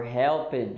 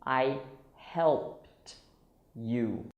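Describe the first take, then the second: First: "helped" in two syllables, HEL-pid; learner's mistake. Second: "helped" as one syllable, HELPT, slowly spaced. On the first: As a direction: sound out the ED as a separate "id". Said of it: "I hear many Brazilians saying". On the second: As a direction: finish "helped" on a separate crisp T. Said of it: "So it's". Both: Shown as a demonstration.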